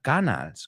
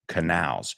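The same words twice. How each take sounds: First: It is pronounced like the Spanish word canales. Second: It is pronounced the way English speakers say it. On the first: The speaker calls it wrong. "It's not canals, because you say canales" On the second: The speaker calls it right. "We say canals"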